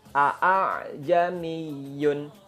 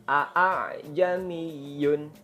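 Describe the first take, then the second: First: The second glottal stop is said in full. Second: The same.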